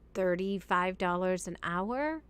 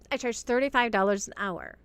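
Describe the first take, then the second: First: It sounds unsure, rising like a question. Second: It sounds confident, like a firm statement.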